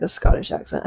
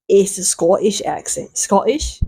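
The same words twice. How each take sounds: First: Said in the usual way. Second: Unsure amateur Scottish accent; tentative stab at a Scottish accent; attempted Scottish accent. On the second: Shown as a demonstration. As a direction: try a Scottish accent, doubting it. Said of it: "I love Scottish accents".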